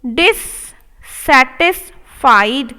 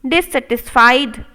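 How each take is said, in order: First: Dissatisfied drawn out, rising at the end; slow model take. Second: Said in the usual way. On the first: Shown as a demonstration. Teacher modelling dissatisfied slowly. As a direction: stretch each part. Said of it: "slow model take". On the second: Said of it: "normal repeat".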